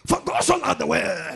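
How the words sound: It is said with charismatic preaching intonation.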